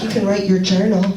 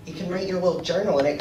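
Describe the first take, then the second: First: A hint of a lilting, camp mom; light mock of mom's sing-song; lightly camp mom voice. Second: Mom impression. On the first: Son imitating his mom's camp voice, lightly lilting.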